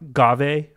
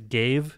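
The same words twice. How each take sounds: First: It does not sound like the English word 'gave'. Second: It sounds like the English word 'gave'. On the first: This is the speaker's preferred pronunciation. The speaker calls it right. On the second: This is the official pronunciation. The speaker calls it wrong.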